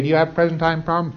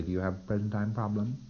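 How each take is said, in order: First: Brisk auditor question. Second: Soft auditor question. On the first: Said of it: "You say". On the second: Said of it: "And you say". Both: Shown as a demonstration.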